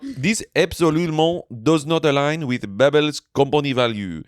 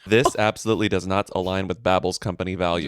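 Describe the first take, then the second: First: It is said in a put-on French accent. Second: It is said in the speaker's plain accent.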